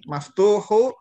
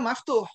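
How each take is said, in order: First: The word ends with a short u vowel. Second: The word stops right after the h sound. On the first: The word is read in full with its case ending. "Ini seperti ini" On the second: The reader stops on the word, dropping the ending. "Kalau dibaca berhenti, dia dibaca maftuh"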